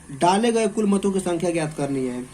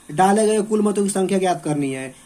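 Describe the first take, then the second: The two takes are said the same way.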